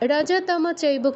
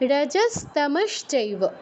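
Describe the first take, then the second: First: The s and sh sounds are left out. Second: The s and sh sounds are fully pronounced. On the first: The speaker calls it wrong. "রজতম চৈব কেউ বলবো না" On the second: The speaker calls it right. "এটা করলে হবে না। রজস্তমশ্চৈব"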